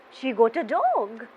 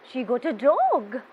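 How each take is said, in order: Both takes have the same delivery.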